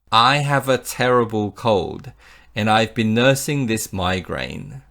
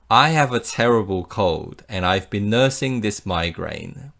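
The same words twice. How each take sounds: The two takes are said the same way.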